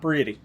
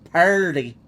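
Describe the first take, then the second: First: It is said the standard way, like pretty. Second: It is said the Southern way, like purty. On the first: The speaker calls it wrong. "not pretty" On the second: The speaker calls it right. "That's what we say in the South"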